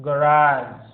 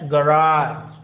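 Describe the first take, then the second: The two takes are said the same way.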